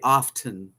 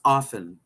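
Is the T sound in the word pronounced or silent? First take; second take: pronounced; silent. First: The T sound is pronounced. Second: The T sound is silent. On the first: The speaker calls it wrong. "most people say often, but it's really not" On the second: The speaker calls it right. "You don't say the T"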